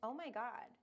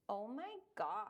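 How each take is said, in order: First: The vowels are short and normal. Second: The vowels are stretched out long.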